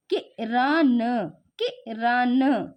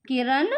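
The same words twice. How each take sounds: First: Kiran read very slowly, syllable by syllable; slow teaching read; slow sounding out. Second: Said in the usual way. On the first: Shown as a demonstration. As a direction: stretch Kiran out like a teacher to a child. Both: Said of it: "हमने क्या पढ़ा?".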